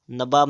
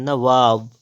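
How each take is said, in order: First: नवाब with b in the middle, nabāb; wrong pronunciation. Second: नवाब with v in the middle, navāb; correct pronunciation. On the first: Teacher showing the error, नवाब as nabāb. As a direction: say नवाब with lips closed on b. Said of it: "नवाब नहीं". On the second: Teacher correcting, नवाब as navāb. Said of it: "क्या होता है". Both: Shown as a demonstration.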